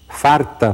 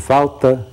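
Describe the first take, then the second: First: An R sound comes before the T. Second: An L sound comes before the T. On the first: It marks rural speech. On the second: It marks urban speech.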